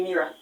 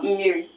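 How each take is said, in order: First: "mmiri" with the final i turned into an a; mispronounced Igbo. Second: "mmiri" with a final i sound; correct Igbo pronunciation. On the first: Learner asking an Igbo man for water, "mmiri" mispronounced as "mira". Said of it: "you just pronounced it as mira". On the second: Teacher giving the Igbo word for water, "mmiri" ending in i. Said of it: "the pronunciation for water in Igbo is". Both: Shown as a demonstration.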